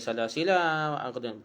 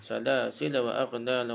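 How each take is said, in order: First: The final 'la' of salasila is long. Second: The final 'la' of salasila is short. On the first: The speaker calls it wrong. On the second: The speaker calls it right. "la tu pendek dah"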